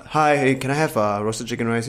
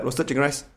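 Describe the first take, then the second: First: Easy, mildly courteous request to a stallholder; nice tone. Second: Softer, bare demand at the counter; curt order. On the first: Shown as a demonstration. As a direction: politely ask for a dish. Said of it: "have a nice tone". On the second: Retold or imitated. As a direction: imitate a customer ordering without courtesy. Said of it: "go up there and go like".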